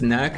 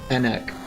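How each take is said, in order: First: The name starts with an N sound. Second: The name starts with a vowel sound. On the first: The speaker calls it right. "just neck, not Enek?" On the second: The speaker calls it wrong. "Am I pronouncing that completely wrong?"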